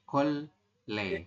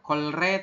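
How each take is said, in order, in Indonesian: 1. Suku kata kedua diawali dengan bunyi L. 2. Suku kata kedua diawali dengan bunyi R. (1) "tapi kol le" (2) "Bukan kolre"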